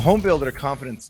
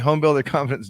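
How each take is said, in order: First: It is said in a failed, put-on Irish accent. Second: It is said in the speaker's normal accent.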